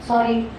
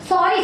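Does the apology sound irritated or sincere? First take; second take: sincere; irritated. First: It is said in a sincere, apologetic tone. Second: It is said in an irritated, impatient tone. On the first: The speaker truly regrets the mistake. "पहला sorry I really mean it" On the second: The apology is only said, not meant. "अभी और कितना बोले sorry"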